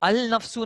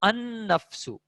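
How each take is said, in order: First: The article is said with a clear L sound. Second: The L merges into a doubled N sound. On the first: The speaker calls it wrong. "अल नफ्सु नहीं" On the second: The speaker calls it right. "बल्कि लिखा हुआ है अन नफ्सु"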